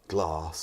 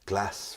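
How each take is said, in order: First: The vowel is long and broad, southern style. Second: The vowel is short and flat, northern style. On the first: "rather than" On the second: "you don't southernize words"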